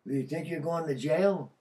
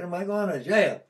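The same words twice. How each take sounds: First: Said in the usual way. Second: Louder, higher scornful echo; mocking echo. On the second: To the probation officer, a loud mocking echo. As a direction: throws the question back, scoffing. And I laughed at him.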